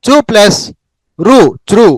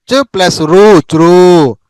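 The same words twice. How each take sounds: First: చ్రు with a short u; short vowel. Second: చ్రు with a drawn-out oo; long vowel. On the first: Teacher combining చ with each vowel, short vowel. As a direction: keep చ్రు brief. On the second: Teacher combining చ with each vowel, long vowel. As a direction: stretch the end of చ్రు. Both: Shown as a demonstration. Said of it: "చ అనే దానికి ఆ కలిపితే చ".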